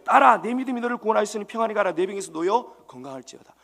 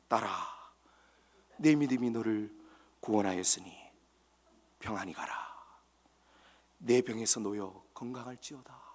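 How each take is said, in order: First: It is said fast. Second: It is said slowly.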